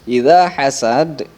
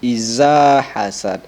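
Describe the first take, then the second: First: The consonant is a th-like sound, tongue tip. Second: The consonant is a plain buzzing z sound. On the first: The speaker calls it right. "cara pengucapannya ada pada ujung lidah" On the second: The speaker calls it wrong. "tidak bisa dibaca dengan iza hasad"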